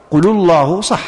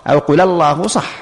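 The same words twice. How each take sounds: First: قل الله with the lam of قل linked by a damma, qulu llah; قل الله said as qulu llahu; damma linking. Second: قل الله with the lam of قل linked by a fatha, qula llah; قل الله said as qula llahu; fatha linking. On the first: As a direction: join قل الله on a u sound. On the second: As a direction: join قل الله on an a sound. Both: Shown as a demonstration. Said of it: "ولو قلت".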